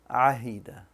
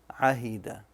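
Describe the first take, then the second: Both takes have the same delivery.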